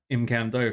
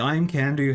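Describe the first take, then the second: First: The word ends with an 'oh' vowel. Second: The word ends with an 'oo' vowel. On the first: The speaker calls it wrong. "Unless you're not into having fun and want to pronounce it Imcando" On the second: The speaker calls it right. "the best hammer in the game"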